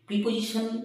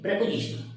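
First: The first syllable has an 'ee'-like vowel. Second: The first syllable has an 'eh'-like vowel. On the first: The speaker calls it wrong. "কথাটা কিন্তু প্রিপোজিশন নয়" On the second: The speaker calls it right. "এর সঠিক উচ্চারণ হচ্ছে প্রেপোজিশন"

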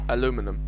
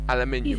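First: The word is said as aluminum. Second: The word is said as aluminium. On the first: "try saying aluminum" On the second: "It rolls off the tongue better than aluminium"

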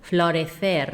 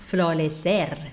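First: The c is pronounced like English th. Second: The c is pronounced like English s. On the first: This is the European Spanish accent. "เราก็จะเอาลิ้นออกมาด้วยนะคะตัว c ... ก็จะพูดเหมือน th" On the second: This is how about twenty other countries say it. "พูดเหมือนตัว s เลยนะ"

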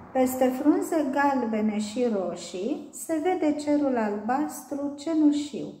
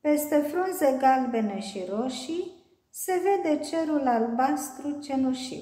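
The two takes are said the same way.

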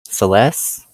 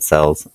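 First: It sounds like the start of 'celestial'. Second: It sounds like the word 'sells'. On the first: The speaker calls it right. "It's pronounced like as in celestial" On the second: The speaker calls it wrong. "I've always said it sells in my brain"

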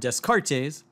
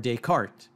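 First: The name is pronounced as if it were an English word. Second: The name is pronounced the way it is said in its own language. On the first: The speaker calls it wrong. "If I were to say" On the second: The speaker calls it right. "the pronunciations should be more like"

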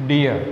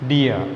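The two takes are said the same way.

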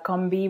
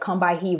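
First: The name is said with two syllables. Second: The name is said with three syllables. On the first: The speaker calls it right. "I've heard Barbara Smith say that it's pronounced" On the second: The speaker calls it wrong. "a lot of people read it as"

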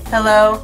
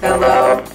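First: The voice is processed to sound high and childlike. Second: The voice is processed to sound robotic. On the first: "You can even go to a kid" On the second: "You can actually sound like a robot here"

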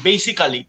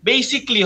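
First: The ending is said as two syllables, ka-li. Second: The ending is said as one syllable, kli. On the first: The speaker calls it wrong. "বারো বছর আমি বলেছি" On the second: The speaker calls it right. "কালি হবে না, এটার উচ্চারণটা ক্লি হবে"

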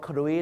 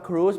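First: The vowel glides from oo to ee. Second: The vowel is a plain long oo. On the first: The speaker calls it wrong. "ชาวไทยนะครับบางทีไปออกเสียงว่าครุย" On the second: The speaker calls it right. "ถูกต้องครับ"

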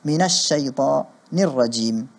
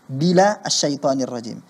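First: The phrase starts with an m sound. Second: The phrase starts with a b sound. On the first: The speaker calls it right. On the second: The speaker calls it wrong. "ucapan ta'awudznya salah"

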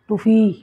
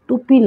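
First: The middle consonant is an F sound. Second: The middle consonant is a P sound. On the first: This is how locals say it. "আমরা টুফি কইনি টুফি" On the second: This is the standard form, not the local one. "টুপি না"

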